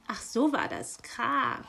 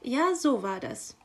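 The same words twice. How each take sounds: First: Miffed hiss at the magpie; hissing raven. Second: Higher, breezy confirmation; guiltless magpie. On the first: Raven hearing the magpie's excuse, hissing. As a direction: hiss it with suspicion. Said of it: "zischte der Rabe". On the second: Magpie answering the raven's reproach, innocently unaware. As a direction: confirm it without any guilt. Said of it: "war sich die Elster keiner Schuld bewusst". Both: Acted.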